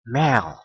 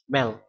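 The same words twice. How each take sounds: First: The vowel is held long. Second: The vowel is short and plain. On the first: It means horse. "Ini a di sini diucapkan panjang" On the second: It means language. "nah ini diucapkan biasa saja"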